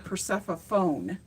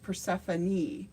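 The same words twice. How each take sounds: First: The name is said with a silent final e. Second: The name is said with every letter sounded. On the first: The name is read as it looks on the page. The speaker calls it wrong. "a lot of people don't know how to pronounce her name because you see Persephone" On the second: The name follows its Latin origin. The speaker calls it right. "because it's based out of Latin, it's Persephone"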